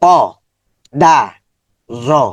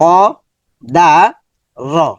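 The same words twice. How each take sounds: Both takes have the same delivery.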